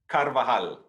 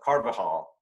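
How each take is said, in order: First: The name is said with non-English sounds. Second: The name is said with English sounds. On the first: "give us your version" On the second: "the Anglo version of it would be"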